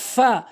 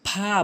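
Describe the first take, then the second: First: The first sound uses upper teeth on lower lip. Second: The first sound is not made with teeth on lip. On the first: The speaker calls it right. "সঠিক উচ্চারণ ... উপরের দাঁতগুলো নিচের ঠোঁটের পেট" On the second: The speaker calls it wrong. "ভুল উচ্চারণ"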